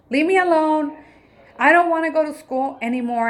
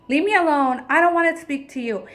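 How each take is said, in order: First: Put-on higher and louder, upset child's voice; sulky child. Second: Put-on higher, louder, snapping child's voice, a bit fast; sulky child. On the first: Mother imitating her son refusing school, higher and louder. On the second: Mother imitating her angry son slamming off upstairs, higher and louder. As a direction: imitate a fed-up kid pushing mom away.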